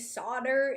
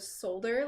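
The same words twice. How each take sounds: First: The word is said the American way. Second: The word is said the non-American way. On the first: "I am from America and we say solder" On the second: "instead of solder like everywhere else"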